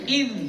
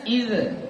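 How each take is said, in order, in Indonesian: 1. Z ditahan tanpa pelepasan tambahan. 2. Z dilepaskan dengan bunyi tambahan di akhir. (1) "Dia harus iz" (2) "Banyak yang bacanya iz ... Enggak boleh"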